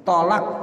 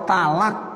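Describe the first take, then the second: First: "Tolak" with heavy t and rounded o; higher, correct "Tolak" with to; heavy Arabic to. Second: "talak" with light t and open a; higher "talak", ta instead of to; ta-initial pronunciation. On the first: Teacher giving the proper form, "Tolak" with heavy to. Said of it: "dibilangnya tak". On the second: Teacher showing the lay form, "talak" with ta. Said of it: "pakai tak". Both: Shown as a demonstration.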